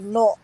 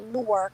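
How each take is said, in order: First: The place name is clipped into a short form. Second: The place name is said in full, as spelled. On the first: This is how locals say it. The speaker calls it right. "We say North. That's how we say it" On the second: This is how outsiders say it. The speaker calls it wrong. "We don't say Newark"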